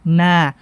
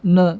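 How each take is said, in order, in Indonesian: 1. Bunyi n ringan dengan vokal yang penuh dan jelas. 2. Bunyi n berat dan menebal. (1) "dengan menyempurnakan huruf nunnya" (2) "Menebalkan nun"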